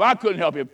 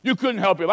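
First: I punched, falling off at the end; stress on I. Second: You punched, falling off at the end; stress on you. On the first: Preacher owning that he could not help, stress on I. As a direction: lean hard on I in "I couldn't help him.". Contrasting you and I. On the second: Preacher telling the crowd who could not help, stress on You. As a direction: lean hard on You in "You couldn't help him.". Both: Shown as a demonstration.

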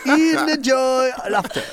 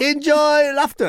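First: Even slower, higher showbiz goodbye; slow high sign-off. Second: Drawn-out high showbiz sign-off. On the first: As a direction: stretch it out like a lounge host. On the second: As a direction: sing it out like a cheesy host. Comic stage sign-off. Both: Shown as a demonstration.

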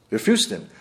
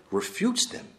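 First: "Refutes" said lower with a falling, final tune; firm repeat. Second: "refutes" said much higher with a rising tune; emphatic rise. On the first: Teacher repeating the verdict on innovators, "Refutes" falling firm. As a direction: drop "Refutes" down and close it firmly. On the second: Teacher stating proofs refute innovators, "refutes" rising high. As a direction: lift "refutes" high and leave it hanging. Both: Real, not acted.

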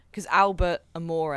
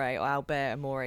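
First: "Albert Amore" said slowly, with an unsure first try at the name; slow the name down: "Albert Amore", feeling your way. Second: "Albert Amore" said again as the fixed version, run together as "Albertamore"; corrected name. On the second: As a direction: correct yourself: "Albert Amore", quicker and surer. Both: Shown as a demonstration.

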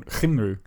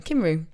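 First: Cymru with a throaty ch onset, Chum-ree; Welsh pronunciation. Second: Cymru with a hard k, Kum-ree; Welsh pronunciation. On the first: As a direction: start Cymru with a rough ch sound. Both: Shown as a demonstration. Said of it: "is it Cymru or Simru?".

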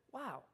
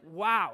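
First: Very soft, impressed murmur; hushed appreciation; gentle, thoughtful wow. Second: Low, firm disbelief; disapproving astonishment; appalled wow. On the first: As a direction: breathe it quietly, as if hearing wisdom. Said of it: "when you have just heard something wise". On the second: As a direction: react to something foolish, lower and solid. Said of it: "when you hear something incredibly insensitive and foolish". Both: Shown as a demonstration.

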